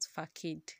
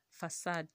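First: The middle consonant is a k sound. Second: The middle consonant is an s sound. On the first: The speaker calls it wrong. "not facade" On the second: The speaker calls it right. "F-A-C-A-D-E is actually pronounced facade"

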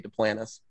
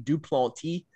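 First: The name is said in a Louisiana way. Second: The name is said in standard French. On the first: This is how the locals say it. "here in South Louisiana, we say Duplantis" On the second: This is the original pronunciation. "the real French pronunciation of my last name would be Duplantis"

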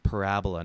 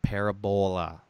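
First: The word is said in a plain English way. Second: The word is said in an Italian-sounding way. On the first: The speaker calls it right. "it's parabola" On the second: The speaker calls it wrong. "not parabola"

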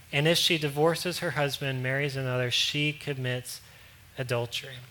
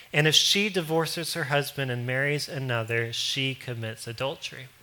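The two takes are said the same way.

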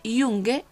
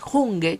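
First: The word begins with a y sound. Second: The word begins with a throaty h sound. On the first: The speaker calls it right. "si pusieses en vez de una J una Y y sonase Junge" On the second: The speaker calls it wrong. "que diríamos en español"

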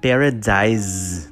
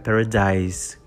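First: The word ends with an extra vowel after s. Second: The word ends cleanly on an s sound. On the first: The speaker calls it wrong. "não tem esse final" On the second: The speaker calls it right. "É paradise com S"

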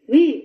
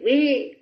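First: The yes sounds neutral and quick. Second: The yes sounds exasperated and fed up.

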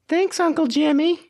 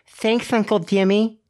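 First: The s sound is pronounced clearly, without a lisp. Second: The s sound is pronounced with a lisp.

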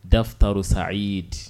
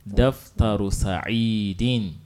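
First: The last word stops without its -in ending. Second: The last word ends with a full -in ending. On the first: "the last letter on which you're going to stop, you don't pronounce it completely" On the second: "ordinarily we know that this Sa'id is having kasratan"

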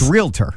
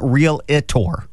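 First: The word is said with two syllables. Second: The word is said with three syllables. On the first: The speaker calls it right. "It's realtor. / it's two syllables" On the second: The speaker calls it wrong. "Apparently, it's not realtor"

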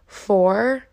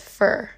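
First: The word has a full vowel. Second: The word has a reduced vowel. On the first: "instead of saying four" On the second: "everyone says fur"

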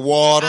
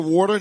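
First: Water is said in a Southern accent. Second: Water is said in a crisp New Jersey accent.

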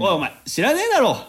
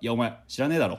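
First: It is said in a playful, joking way. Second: It is said in a dead-serious, cold way.

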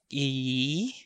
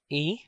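First: The vowel is stretched out and held longer. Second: The vowel is held for a normal length. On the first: "the long vowel pronunciation... just extend the vowel to make the sound longer" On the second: "We have the normal pronunciation"

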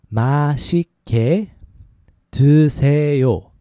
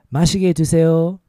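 First: It is said slowly. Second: It is said faster.

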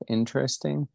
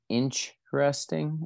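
First: It is said the standard way, without ch. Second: It sounds like 'inch-resting', with a ch sound. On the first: It is the usual pronunciation. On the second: It mimics another person's odd pronunciation.

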